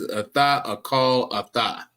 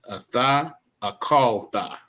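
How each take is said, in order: First: An extra vowel splits the ending into two parts. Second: The ending is joined without an extra vowel. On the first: The speaker calls it wrong. "What what I keep hearing is" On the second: The speaker calls it right. "what you want to say is"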